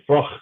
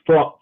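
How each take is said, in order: First: The name is said with a Polish-style ending. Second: The name ends with an English ch sound. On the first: This is how the family elders said it. The speaker calls it wrong. "they're from Poland and they'll pronounce it Froch" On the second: This is the name's actual pronunciation. The speaker calls it right. "it's actually pronounced Froch with a ch at the end"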